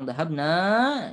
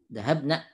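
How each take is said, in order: First: The final vowel is said long. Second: The final vowel is said short. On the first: We went. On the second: A group of women went.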